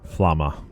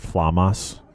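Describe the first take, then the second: First: The name ends without an s sound. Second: The name ends with an s sound. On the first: The speaker calls it right. "No S" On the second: The speaker calls it wrong. "I was saying Flamas"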